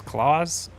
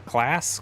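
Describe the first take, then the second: First: Claas as KLAWZ, long vowel, buzzing Z; unsure pronunciation. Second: Claas with a short A, rhyming with "lass"; unsure pronunciation. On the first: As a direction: try "Claas" like "claws", higher and questioning. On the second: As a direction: try "Claas" as KLASS, questioning. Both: Shown as a demonstration. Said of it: "I think that's how you say it".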